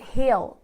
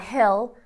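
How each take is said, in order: First: The word is said with a noticeable accent. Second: The word is said in a plain, unaccented way. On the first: "it's like hill. almost like the person does have an accent" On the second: "I would say down the hill"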